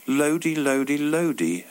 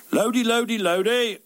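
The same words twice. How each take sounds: First: Said in the usual way. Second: Jovial shout. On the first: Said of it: "Why would two normal men shout". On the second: Retold or imitated. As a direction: hail a mate across the street, cheerfully. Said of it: "he shouted jovially".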